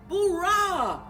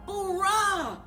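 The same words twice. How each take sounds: The two takes are said the same way.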